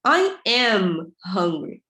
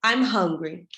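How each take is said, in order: First: I AM drawn out slowly for emphasis before "hungry"; emphatic full form. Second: Said in the usual way. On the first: Shown as a demonstration. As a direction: stretch both words of "I am" hard, then "hungry". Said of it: "usa o tom de voz pra dar ênfase". (ênfase em "I am", bem pausado e alongado) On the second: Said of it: "por exemplo, assim".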